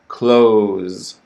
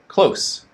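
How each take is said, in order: First: It ends in a voiced z with a longer vowel. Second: It ends in a voiceless s with a shorter vowel. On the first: It is the verb meaning to shut. "z is voiced. So the vowel sound is longer" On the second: It is the adjective meaning near. "s is unvoiced. So the vowel sound is shorter"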